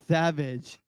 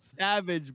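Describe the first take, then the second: First: The s is pronounced with a lisp. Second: The s is pronounced clearly, without a lisp. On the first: This is how the boxer would say it. "he talks like this" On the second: This is the token's actual name. "It's called Savage"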